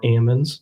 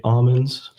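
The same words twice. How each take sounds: First: "almonds" with a short A as in cat; first vowel of "almonds" as in apple; almonds as AM-onds. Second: "almonds" with an open AH at the start; first vowel of "almonds" as in father; almonds as AH-monds. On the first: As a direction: say "almonds" like AM-unz. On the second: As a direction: say "almonds" like AH-munz. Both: Shown as a demonstration. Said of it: "depending on how you wanna pronounce it".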